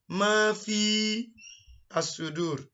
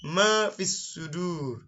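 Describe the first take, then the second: First: An extra a sound comes before sudur. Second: Sudur follows directly with no extra vowel. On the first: The speaker calls it wrong. "Instead of" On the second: The speaker calls it right. "it will be"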